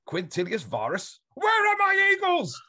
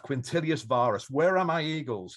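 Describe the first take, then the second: First: Huge high slow scream, far louder. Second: Rising, louder cry; mild mock emperor shout; retold shout. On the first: Retold or imitated. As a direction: bellow it like a raging emperor. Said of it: "Screamed it". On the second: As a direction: call out to the missing general. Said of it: "wake up and shout".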